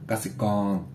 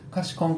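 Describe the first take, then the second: First: It starts with a voiced g and has a long final vowel. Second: It starts with an unvoiced k and has a short final vowel. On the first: The speaker calls it right. "ガセコーンなんですよ。これがちゃんとした綴りなので" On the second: The speaker calls it wrong. "これ大事に通じないと思いますよ。カシコンって言っちゃうと"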